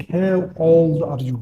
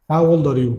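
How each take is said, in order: First: Very slow, each word drawn out; slow demo. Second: Said in the usual way. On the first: Shown as a demonstration. Teacher to students, modelling the question very slowly. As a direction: spell the question out slowly for learners. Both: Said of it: "فواحد يقول لك".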